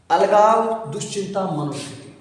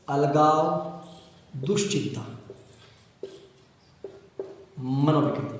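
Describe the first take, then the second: First: Said in the usual way. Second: Slow dictation. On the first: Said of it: "teacher names the disorder". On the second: Shown as a demonstration. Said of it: "teacher dictates term word by word".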